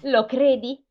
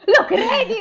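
First: Said in the usual way. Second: High-pitched, hammed-up little girl's cry; squealed storybook exclamation; little Gerda's cry. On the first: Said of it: "gridò". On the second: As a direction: cry it out far higher, close to laughing. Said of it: "gridò la piccola Gerda".

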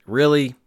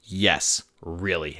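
First: Incredulous one-word question; mock-disbelieving "really?"; imitating disbelieving daughter. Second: Low, softer falling answer; understated, settled reply; matter-of-fact confirmation. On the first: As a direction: question it like an unimpressed kid. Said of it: "exactly how my daughter would say it". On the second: Acted. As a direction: confirm it, dropping down low and soft. Answers the imagined doubting question.

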